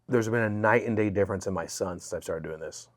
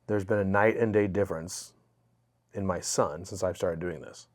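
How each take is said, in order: First: It is said at a normal conversational pace. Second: It is said more slowly and clearly.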